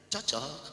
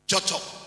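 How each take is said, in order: First: It is said as a probing question. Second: It is said plainly, as warm agreement. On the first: The speaker is asking whether it really fits. "baru dia tanya" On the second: The two things really fit well together. "Kalau saya bilang cocok, saudara tahu artinya?"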